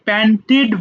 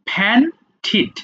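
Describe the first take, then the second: First: The word begins with a plain p sound. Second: The word begins with a breathy ph sound. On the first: The speaker calls it wrong. "আমরা generally এটাকে প্যান্টেড বলি" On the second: The speaker calls it right. "তাহলে এটা হয়ে যাবে ফ্যান্টিড"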